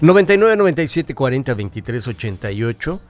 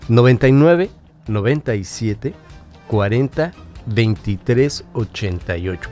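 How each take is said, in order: First: The number is said quickly. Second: The number is said slowly.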